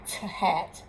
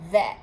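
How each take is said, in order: First: It begins with separate t and h sounds. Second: It begins with a single th sound. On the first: The speaker calls it wrong. "Not t hat" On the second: The speaker calls it right. "but that"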